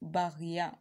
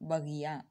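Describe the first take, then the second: First: The first vowel is long, like 'baa'. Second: The first vowel is short, like 'ba'. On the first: The speaker calls it wrong. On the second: The speaker calls it right.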